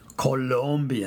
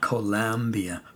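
First: The second syllable has an 'o' vowel. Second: The second syllable has a 'u' vowel. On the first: The speaker calls it right. "Colombia, not Colombia" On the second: The speaker calls it wrong. "not Colombia"

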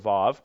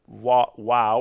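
First: The word begins with a V sound. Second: The word begins with a W sound. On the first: This is the modern pronunciation. "This is more like the modern one" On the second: This is the ancient pronunciation. "I say Wow because it's more of the ancient pronunciation"

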